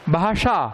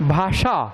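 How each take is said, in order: First: The middle consonant is a retroflex 'sh'. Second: The middle consonant is a retroflex 'sh'.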